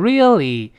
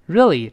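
First: Every vowel is fully pronounced. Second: It is said fast with the middle vowel dropped. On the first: "理论上是读成really" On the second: "读快之后那个re 啊那个啊就来不及做了"

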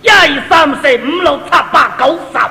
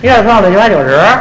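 First: It is counted effortfully in a Cantonese accent. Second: It is counted in a fast, slurred Beijing accent.

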